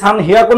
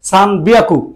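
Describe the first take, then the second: First: The second word begins with an h sound. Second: The second word begins with a b sound. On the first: The speaker calls it wrong. "সান হিয়াকু না বলে" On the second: The speaker calls it right. "বলতেছে সান বিয়াকু"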